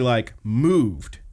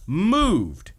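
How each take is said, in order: First: Said in the usual way. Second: Moved swoops high and falls; emphatic high repeat. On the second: Shown as a demonstration. Host stresses to co-host how moved the father was, swooping high. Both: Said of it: "repeated word".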